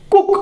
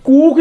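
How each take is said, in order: First: कुक with a short clipped u, like English cook; teacher modelling कुक with short u. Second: कूक with a long stretched oo, the wrong way; teacher demonstrating wrong कूक with long ऊ. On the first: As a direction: say कुक quick, short u vowel. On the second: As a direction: draw out कूक as a long ऊ to show the mistake. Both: Shown as a demonstration. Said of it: "कूक नहीं होगा".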